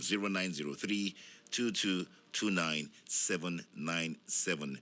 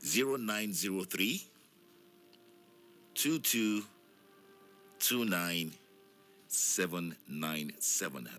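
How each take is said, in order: First: The number is read fast. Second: The number is read slowly.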